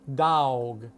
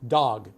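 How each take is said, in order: First: The word is said in a Southern American accent. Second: The word is said in a Los Angeles accent. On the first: "dog is often pronounced in the South" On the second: "I have a Los Angeles accent"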